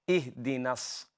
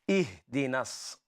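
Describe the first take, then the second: Both takes have the same delivery.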